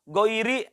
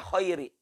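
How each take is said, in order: First: It begins with a voiced throaty gh sound. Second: It begins with a voiceless throaty kh sound. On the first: The speaker calls it right. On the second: The speaker calls it wrong.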